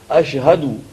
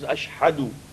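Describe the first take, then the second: First: The h is plain and breathy. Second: The h is harsh and from the throat. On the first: The speaker calls it right. "is hey from here" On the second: The speaker calls it wrong. "it is not ha, which is"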